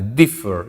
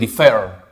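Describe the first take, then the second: First: The stress is on the first syllable. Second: The stress is on the second syllable. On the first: The speaker calls it right. "Mayor fuerza de voz aquí adelante" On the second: The speaker calls it wrong. "Yo no digo differ"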